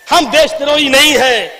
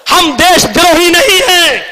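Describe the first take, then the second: First: Firm restatement in a contained voice; controlled, falling declaration; measured insistence. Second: High, forceful declaration of loyalty; raised, ringing protest; defiant cry. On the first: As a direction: state the denial steadily, without shouting. Same denial repeated in lower register. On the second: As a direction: cry out the denial to the crowd. Defiant denial, repeated less forcefully. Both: Real, not acted.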